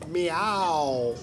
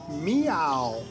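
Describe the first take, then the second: First: The stress is on the first syllable. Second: The same.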